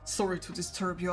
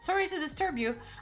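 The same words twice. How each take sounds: First: It is read in a deep, rich voice. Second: It is read in a light, feminine voice. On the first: The speaker calls it right. "That's like a deep, rich voice. Let me, let me repeat that" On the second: The speaker calls it wrong. "I read it in such a feminine voice"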